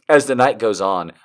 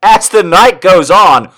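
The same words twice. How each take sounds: First: Said in the usual way. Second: Loud, high mock-dramatic narration; hammed-up loud reading. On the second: Reader launching the night's story, loud and theatrical. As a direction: belt out the story line.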